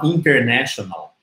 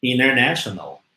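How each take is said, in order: First: "international" with a clear T after N; pronúncia com T. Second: "international" as "innernational"; T mudo. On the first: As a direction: sound the first T, "in-ter-national". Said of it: "A gente não fala international". ("international" com o T, "internéshonal") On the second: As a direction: swallow the first T in "international". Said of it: "o T some logo após o N". ("international" sem o T, "inernéshonal") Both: Shown as a demonstration.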